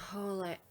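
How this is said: It is said in a sultry, sexy voice.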